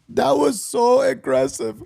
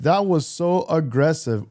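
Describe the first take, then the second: First: It imitates Soccer is Life's voice. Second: It is said in his normal voice.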